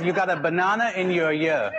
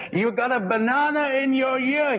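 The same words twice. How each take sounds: First: Said in the usual way. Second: Pitched much higher, calling to be heard. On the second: Retold or imitated. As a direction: say it again for someone who missed it. Repeating to a man who can't hear.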